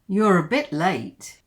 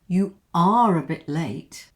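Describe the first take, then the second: First: "You are" is contracted to one syllable. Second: "You are" is said in full, stressing "are".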